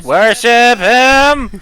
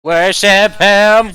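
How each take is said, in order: First: Screeching robotic Dalek, much higher. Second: Shrill robotic Dalek chant. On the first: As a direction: chant it like a Dalek. Dalek Emperor chant. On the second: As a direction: screech it like a Dalek. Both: Acted.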